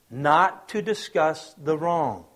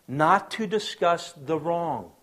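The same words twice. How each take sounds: First: Slow, weighed repeat; slow emphasis repeated. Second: Each word slow and weighed; slow emphasis. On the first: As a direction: say it again slowly with weight. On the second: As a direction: lean on it slowly, word by word. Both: Shown as a demonstration.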